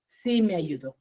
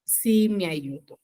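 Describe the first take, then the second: First: Hushed whispered echo of the answer. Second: Said in the usual way. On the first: Shown as a demonstration. Teacher whispering the answer to her class. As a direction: breathe it back to the class as a soft whisper.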